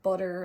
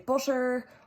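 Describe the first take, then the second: First: The t is a quick flapped sound. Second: The t is weakened, as in Irish English. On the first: "an even quicker flapped sound" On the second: "weaken it like we do in Ireland"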